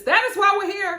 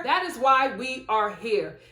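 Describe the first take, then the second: First: Higher, stressed on why; "That is why we're here" with why punched high; emphatic. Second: Said in the usual way. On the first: Shown as a demonstration. Vlogger to viewers, punching the word why.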